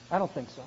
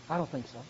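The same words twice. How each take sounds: The two takes are said the same way.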